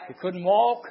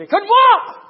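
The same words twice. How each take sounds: First: Said in the usual way. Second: Sudden high, loud pulpit cry; preaching shout. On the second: Real, not acted. Preacher bursts into a shout, then repeats.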